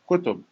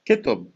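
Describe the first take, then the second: First: The first vowel is a rounded 'u' sound. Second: The first vowel is an unrounded 'i' sound. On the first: This is the standard form of the word. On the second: This is how it is said in the Lebanese dialect.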